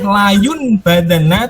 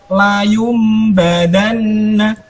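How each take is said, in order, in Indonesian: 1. Bunyi sengau sebelum b seperti n. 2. Bunyi sengau sebelum b seperti m. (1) "tidak boleh layun badana" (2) "tetapi layum badana"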